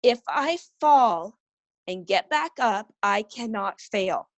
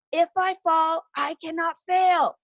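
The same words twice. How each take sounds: First: Slow, deliberate motherly prompt; measured retold pep talk; firm model phrase. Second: Half-voiced yell at a high pitch; retold yelling. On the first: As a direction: say it slowly for a child to repeat. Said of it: "you repeat after me". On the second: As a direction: imitate a family chanting a rallying cry. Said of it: "we're all yelling".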